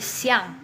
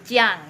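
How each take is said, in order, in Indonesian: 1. Kata ini diawali bunyi 's'. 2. Kata ini diawali bunyi 'ch'. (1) "X I A N G itu siang sebutannya" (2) "jangan kayak muridnya Lafse yang bilang pinyin X itu jadi C"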